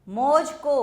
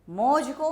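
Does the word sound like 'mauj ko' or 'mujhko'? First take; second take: mauj ko; mauj ko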